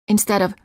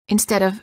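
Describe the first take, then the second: The two takes are said the same way.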